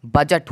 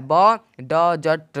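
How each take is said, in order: First: बजट said buh-jut, D dropped, lower; correct silent D. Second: ब ड जट broken into separate syllables, very slow; wrong pronunciation, slowly. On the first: Teacher gives students the right form, in a lower voice. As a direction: say बजट smoothly with no D. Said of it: "बजट हुआ है उच्चारण". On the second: Teacher slowly demonstrates the wrong D sound to students. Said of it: "ब ड जट नहीं हुआ है". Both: Shown as a demonstration.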